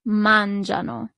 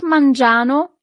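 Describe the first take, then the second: First: Mangiano with the stress on the first syllable, MAN-gia-no, said slowly; correct stress. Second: Mangiano stressed wrongly on the third syllable, man-gi-A-no. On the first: Italian teacher modelling the correct stress of mangiano for students. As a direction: mangiano said the right way, leaning on MAN. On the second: Italian teacher showing students the wrong stress on mangiano. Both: Shown as a demonstration. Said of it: "Watch out the accent here".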